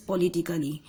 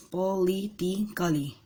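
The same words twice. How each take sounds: First: Said in the usual way. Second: "Politically" slowly broken into its syllables; slow, segmented "Politically" for counting syllables. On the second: Shown as a demonstration. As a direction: sound out "Politically" in separate beats. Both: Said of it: "It has five syllables".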